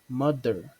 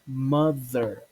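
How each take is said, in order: First: The middle consonant is a hard d sound. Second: The middle consonant is a buzzing th sound. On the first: The speaker calls it wrong. "many people confuse it as in mother" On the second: The speaker calls it right. "but it's actually mother"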